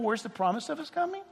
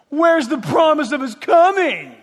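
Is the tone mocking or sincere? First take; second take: sincere; mocking. First: It is said as a polite, sincere question. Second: It is said in a mocking, scoffing tone.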